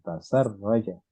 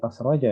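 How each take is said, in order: First: A vowel follows the s before a doubled r. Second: The s has no vowel after it. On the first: The speaker calls it right. "padahal itu harus bertasdid" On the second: The speaker calls it wrong. "bukan tas roja ya"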